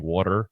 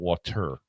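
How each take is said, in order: First: It is said in a New Jersey accent. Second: It is said in a standard accent.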